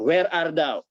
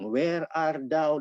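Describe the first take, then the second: First: It is said in a stern, commanding tone. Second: It is said in a gentle, pleading tone. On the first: People are summoned to face judgment. "kata-kata di manakah engkau ini akan berubah intonasinya" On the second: The lost are being sought and invited back. "Mencari yang terhilang"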